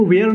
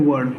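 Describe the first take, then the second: First: "where" with an open e, rhyming with air; wrong pronunciation. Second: "word" as vur, with a neutral central vowel; correct pronunciation. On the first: Tutor showing students the mistaken reading, "where" with an open e. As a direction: say "where" as vair in place of were. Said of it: "इसको where नहीं पढ़ते". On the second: Tutor correcting students' reading, "word" with a central uh vowel. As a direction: say "word" with a short uh vowel, as in were. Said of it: "इसको पढ़ते हैं word". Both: Shown as a demonstration.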